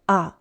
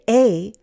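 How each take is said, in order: First: The vowel is reduced to a schwa. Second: The vowel is a full, unreduced sound. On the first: The speaker calls it right. "we use the schwa sound a" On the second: The speaker calls it wrong. "We don't say a"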